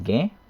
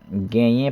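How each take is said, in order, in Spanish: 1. La palabra se acorta y se pierde la vocal final. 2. La palabra se dice completa, con su vocal final.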